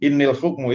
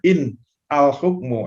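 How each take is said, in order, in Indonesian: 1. Kata in dan al disambung. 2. Kata in dan al tetap dipisah. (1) "karena disambung innil hukmu" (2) "sebenarnya in al hukmu, aslinya itu"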